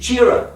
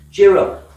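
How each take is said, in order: First: Said in the usual way. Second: Louder emphatic repeat. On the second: Shown as a demonstration. Preacher urging the congregation, louder emphatic cheer up. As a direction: Cheer up, said louder and leaning hard on cheer.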